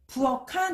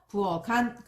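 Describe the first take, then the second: First: The final consonant links over as aspirated k. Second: The final consonant links over as plain g. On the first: The speaker calls it wrong. "이렇게 발음하는 것이 아니라" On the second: The speaker calls it right. "대표음으로 바뀌어서"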